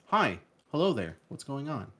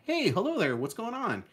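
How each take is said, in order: First: It is read flatly, with no inflection. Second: It is said lively, with natural inflection.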